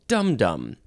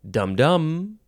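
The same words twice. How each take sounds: First: The stress falls on the first syllable. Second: The stress falls on the second syllable. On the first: The speaker calls it right. "you have to emphasize the first dum over the second dum" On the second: The speaker calls it wrong. "You can't say dum-dum"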